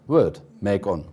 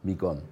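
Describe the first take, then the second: First: The first vowel sounds like the 'e' in 'bed'. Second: The first vowel sounds like the 'ee' in 'see'. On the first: This is the older pronunciation of the word. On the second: This is the later pronunciation of the word.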